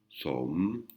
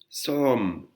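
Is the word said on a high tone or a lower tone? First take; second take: lower; high. First: The word is said on a lower tone. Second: The word is said on a high tone. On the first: "je ne mets pas le marqueur de tonalité maito" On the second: "avec le marqueur de tonalité maito ... une intonation aiguë, une intonation haute"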